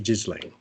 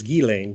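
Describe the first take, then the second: First: The name is said without French pronunciation. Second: The name is said with French pronunciation. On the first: This is the speaker's own habitual way. "but I always say Ghislaine" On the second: This is how the name is properly said. "because she's French. So the name is French. So it's Ghislaine"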